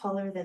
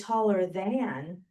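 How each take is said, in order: First: The words are said quickly and run together. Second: The words are said slowly and separately. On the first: "but if I say it faster" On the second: "If I say it slow"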